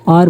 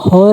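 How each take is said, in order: First: The word begins with a vowel sound. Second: The word begins with a sounded h. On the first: The speaker calls it right. "पहला word है एच वो silent होता है" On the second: The speaker calls it wrong. "और को हम हॉर नहीं पढ़ते"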